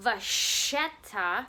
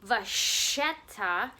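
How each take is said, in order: First: The middle consonant is a soft sh sound. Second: The middle consonant is a soft sh sound.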